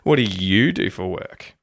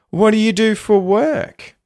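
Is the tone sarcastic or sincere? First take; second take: sarcastic; sincere. First: The tone is sarcastic, stressing the word you. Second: The tone is sincere, rising at the end. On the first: The speaker doesn't care and is being judgmental. "If I want to make it sarcastic, though, or negative ... I've even emphasized the word you" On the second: The speaker is genuinely interested in the person. "You'll hear how it pops up at the end there to a sort of higher pitch. ... that's sincere, polite"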